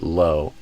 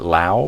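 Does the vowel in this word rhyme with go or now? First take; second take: go; now. First: The vowel rhymes with go. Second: The vowel rhymes with now. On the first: The speaker calls it right. "but low, like go" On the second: The speaker calls it wrong. "not low"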